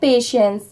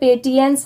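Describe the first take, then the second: First: The middle consonant is an sh sound. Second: The middle consonant is a t sound. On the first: The speaker calls it right. "इसकी pronunciation है पेशेंस" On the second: The speaker calls it wrong. "इसे पेटियंस नहीं पढ़ेंगे"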